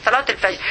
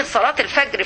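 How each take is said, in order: First: الفجر with its ج as a soft "j", not hard "g"; soft jeem. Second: Said in the usual way. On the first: Real, not acted. Teacher correcting herself to classical pronunciation, soft jeem in الفجر. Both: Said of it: "نار الواجب إن عطش الجيم".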